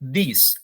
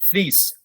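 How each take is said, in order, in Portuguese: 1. A palavra começa com som de th. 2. A palavra começa com um som diferente.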